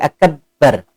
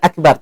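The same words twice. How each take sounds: First: The b sound is held long and doubled. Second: The b sound is short and single. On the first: The speaker calls it wrong. "Banyak kayak ada suara tasdid" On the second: The speaker calls it right. "Bukan akbar"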